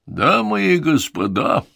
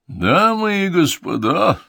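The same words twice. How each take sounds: First: Showman's grand opening call; drawn-out announcer address to the crowd; ringmaster announcing. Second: Higher, slow, louder climactic announcement; ringmaster at full pitch. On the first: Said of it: "объявил конферансье низким голосом". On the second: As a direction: whip the crowd into a frenzy. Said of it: "Голос конферансье достиг наивысшего накала". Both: Acted.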